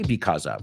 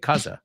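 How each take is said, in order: First: Both syllables of 'because' are said in full. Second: The first syllable of 'because' is dropped. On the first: The speaker calls it wrong. "we don't say because of" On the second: The speaker calls it right. "we say cause of"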